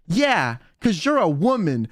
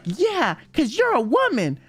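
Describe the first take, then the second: First: Imitating a flat, dead-serious reply. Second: Higher, playful retelling of the serious line; mock earnest, higher. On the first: Rosemi tells Kyo in earnest, dead serious. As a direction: say it straight, with no hint of a joke. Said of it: "so seriously". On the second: Kyo repeats Rosemi's line, mock earnest and higher. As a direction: lift it up, teasing the memory. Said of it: "She was like".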